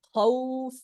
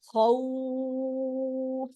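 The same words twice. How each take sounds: First: The vowel sound is stretched only briefly. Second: The vowel sound is stretched out much longer. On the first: "এক আলিফ টানলাম" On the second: "তিন আলিফ টানলাম"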